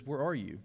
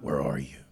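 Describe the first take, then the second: First: Said in the usual way. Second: Very low, gravelly-free menacing growl of Batman; deep Batman growl. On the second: Shown as a demonstration. Preacher mocking a scary Batman voice.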